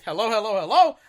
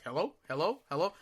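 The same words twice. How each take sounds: First: Yelling hello. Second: Soft, questioning hellos rising at the end; a mild impression of the operator checking the line; quiet operator hello. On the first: Retold or imitated. Caller yells hello at the silent operator. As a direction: shout back down the phone at him. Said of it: "I'm screaming in the phone". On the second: Operator softly asking if anyone is there.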